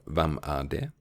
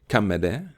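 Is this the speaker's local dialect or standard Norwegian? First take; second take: standard Norwegian; local dialect. First: It is said in standard Norwegian. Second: It is said in the speaker's local dialect.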